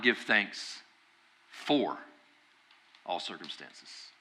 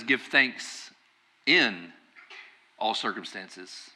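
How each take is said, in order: First: "for" set apart by pauses; stress on "for". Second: "in" set apart by pauses; stress on "in". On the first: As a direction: isolate "for", then drop very softly on the rest. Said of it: "You see the difference?". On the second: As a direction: isolate "in", then drop softly on the rest. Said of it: "look at this verse very carefully". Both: Shown as a demonstration.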